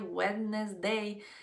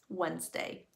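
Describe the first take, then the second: First: The middle d is sounded in the word. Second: The middle d is silent in the word. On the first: The speaker calls it wrong. "muchos dicen Wednesday" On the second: The speaker calls it right. "la forma correcta de decirlo es Wednesday"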